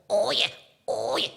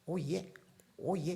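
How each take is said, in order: First: It is said in a quacky, duck-like voice. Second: It is said in a plain voice.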